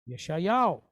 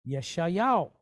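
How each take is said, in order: The two takes are said the same way.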